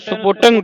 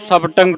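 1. ਪਹਿਲੇ ਅੱਖਰਾਂ ਵਿੱਚ 'u' ਸੁਰ ਹੈ। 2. ਪਹਿਲੇ ਅੱਖਰ ਵਿੱਚ 'a' ਸੁਰ ਹੈ। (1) "ਕਈ ਸੰਗਤਾਂ ਨੂੰ ਸੁਪੁਟੰਗ ਪੜ ਜਾਂਦੀਆਂ, ਫੱਫੇ ਨੂੰ ਔਂਕੜ ਲਾ ਕੇ" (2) "ਟਕਸਾਲ ਦੇ ਵਿੱਚ ਇਸ ਨੂੰ ਸਬਟੰਗ ਪੜਾਉਂਦੇ ਨੇ"

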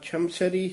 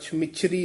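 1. ਵਿਚਕਾਰਲਾ ਹਿੱਸਾ ਸਖ਼ਤੀ ਨਾਲ ਬੋਲਿਆ ਜਾਂਦਾ ਹੈ, ਬਿਨਾਂ ਨਰਮ ਸਵਰ ਦੇ। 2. ਵਿਚਕਾਰਲਾ ਹਿੱਸਾ ਨਰਮੀ ਨਾਲ ਬੋਲਿਆ ਜਾਂਦਾ ਹੈ, ਹਲਕੇ ਸਵਰ ਨਾਲ। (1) "ਛਮਛਰੀ ਹੀ ਪਾਠ ਉਚਾਰਨ ਕਰਨਾ ਹੈ" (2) "ਪੋਲਾ ਛਮਿਛਰੀ ਨਹੀਂ ਕਹਿਣਾ"

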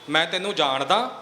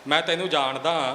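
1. ਇਹ ਸ਼ੱਕ ਵਾਲੇ, ਸਵਾਲੀਆ ਲਹਿਜੇ ਵਿੱਚ ਬੋਲਿਆ ਗਿਆ ਹੈ। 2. ਇਹ ਤਾਅਨੇ ਵਾਲੇ, ਨੀਵਾਂ ਦਿਖਾਉਣ ਵਾਲੇ ਲਹਿਜੇ ਵਿੱਚ ਬੋਲਿਆ ਗਿਆ ਹੈ। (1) "ਇਹ ਇੱਕ ਸ਼ੰਕੇ ਵਾਲੀ ਗੱਲ ਆ ਗਈ" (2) "ਮੈਂ ਤੈਨੂੰ ਜਾਣਦਾ ਕੋਈ ਕਿੰਨੇ ਕੁ ਪਾਣੀ 'ਚ ਹੈਗਾ"

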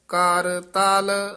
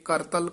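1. ਦੋਵੇਂ ਹਿੱਸੇ ਵੱਖਰੇ ਸ਼ਬਦਾਂ ਵਾਂਗ ਕਹੇ ਜਾਂਦੇ ਹਨ। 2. ਦੋਵੇਂ ਹਿੱਸੇ ਇੱਕ ਸ਼ਬਦ ਵਾਂਗ ਜੁੜ ਕੇ ਕਹੇ ਜਾਂਦੇ ਹਨ।

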